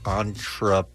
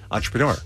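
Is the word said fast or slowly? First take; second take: slowly; fast. First: The word is said very slowly. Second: The word is said quickly.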